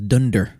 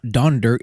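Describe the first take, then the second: First: The first vowel sounds like 'un'. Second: The first vowel sounds like 'on'. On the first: This is the original German form of the name. "in the original text is Dunder" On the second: This is the Americanized form of the name. "when they Americanized it, they said it Donder"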